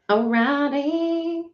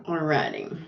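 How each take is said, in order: First: "Alrighty" drawn out slow and high; playful sing-song. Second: Said in the usual way. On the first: Real, not acted. Streamer getting ready to start, high sing-song. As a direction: stretch "Alrighty" upward in a high lilt. Repeats the word, playfully stretched.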